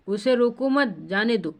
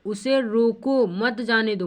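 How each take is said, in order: First: "उसे रोको मत" together, short break, falling "जाने दो"; pause after मत. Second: Slow, stretched "उसे रोको", then "मत जाने दो" together; pause after रोको. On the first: Teacher explaining the permission reading, pause after मत. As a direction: keep मत with रोको, then pause before "जाने दो". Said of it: "मतलब उसे आज्ञा दे रहा है". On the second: Teacher explaining the danger reading, pause after रोको. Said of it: "यहाँ दोनों में क्या फ़र्क है". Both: Shown as a demonstration.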